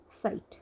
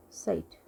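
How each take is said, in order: First: साइट said softly after spelling स, आई, ट; German Zeit rebuilt from its sounds. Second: साइट said as one syllable, ts then long ai then t; German word Zeit. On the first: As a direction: put the sounds back together into साइट. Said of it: "ये है ट". (स, आई, ट जोड़कर साइट धीरे से बोलना) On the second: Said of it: "ये जो साउंड दे रहा है ये है स". (जर्मन शब्द साइट को धीरे, एक साँस में बोलना) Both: Shown as a demonstration.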